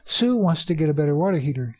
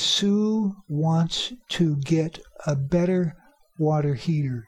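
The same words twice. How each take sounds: First: The words run together with sounds reduced. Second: Each word is said carefully and fully.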